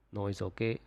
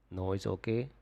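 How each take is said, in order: Both takes have the same delivery.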